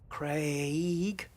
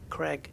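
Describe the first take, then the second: First: The vowel glides from an a toward an i. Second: The vowel is a short plain e sound. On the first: "You see the A and the I getting pronounced in that order?" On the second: "in the U S it's pronounced Craig, almost like it's C R E G G"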